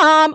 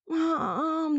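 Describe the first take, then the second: First: The call sounds calm and casual. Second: The call sounds weak and sick. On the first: The child has just arrived home. "which that one means I'm home" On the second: The child is ill. "that's the sick mom"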